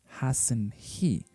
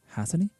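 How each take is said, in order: First: The t is pronounced and the words stay separate. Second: The t is dropped, sounding like has a knee. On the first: The speaker calls it wrong. "it doesn't sound like hasn't he" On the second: The speaker calls it right. "It sounds like if you were saying has a knee"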